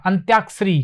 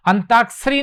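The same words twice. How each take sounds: First: अंत्याक्षरी with a clear त्य cluster; correct form. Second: अंताक्षरी said as the mistaken form, higher; wrong form. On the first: Teacher giving the right word to students, carefully. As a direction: stress the य in अंत्याक्षरी. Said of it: "अंत्याक्षरी होता है". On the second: Teacher showing the wrong word to students, mock. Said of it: "नहीं होता है". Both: Shown as a demonstration.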